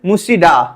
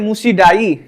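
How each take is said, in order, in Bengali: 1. শব্দটি 'da' ধ্বনিতে শেষ হয়। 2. শব্দটি 'dai' ধ্বনিতে শেষ হয়। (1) "কেউ কেউ করতে পারে হচ্ছে মুসিডা" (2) "কেউ কেউ করতে পারে হচ্ছে মুসিডাই"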